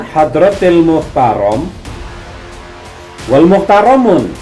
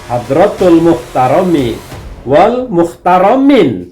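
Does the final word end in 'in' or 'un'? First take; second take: un; in. First: The final word ends with an 'un' sound. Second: The final word ends with an 'in' sound. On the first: The speaker calls it wrong. "beliau menyampaikan Hadratil Muhtaram wal Muhtaramun" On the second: The speaker calls it right.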